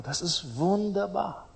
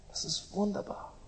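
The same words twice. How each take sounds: First: Said in the usual way. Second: Much softer, almost breathed; soft, awed echo; hushed repeat. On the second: Acted. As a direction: let it fall away into a hush. Savouring repeated phrase.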